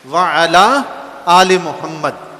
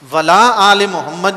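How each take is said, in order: First: A throat consonant is pronounced between wa and ala. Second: Wa and la run together with no throat consonant. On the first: Blessings are asked for him and his family too. The speaker calls it right. "ऐन को उड़ा ना दें, ऐन को पढ़ें बीच में से" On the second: Blessings are asked for him but not his family. The speaker calls it wrong. "वला आले मोहम्मद नहीं"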